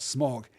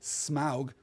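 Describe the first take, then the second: First: The vowel is a plain 'o' sound. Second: The vowel is a round 'ow' sound. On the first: The speaker calls it wrong. "not smog" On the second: The speaker calls it right. "the A U sound ... gives us ow"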